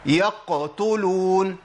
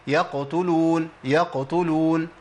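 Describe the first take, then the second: First: يقتلون very slow with a heavy bounce; wrong overdone qalqala; wrong exaggerated qaf. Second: يقتلون slow with a brief, light qaf bounce; light middle qalqala; correct light qalqala. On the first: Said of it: "ما أقولش". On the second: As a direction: show the right يقتلون gently. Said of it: "أما أقول إيه؟". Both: Shown as a demonstration.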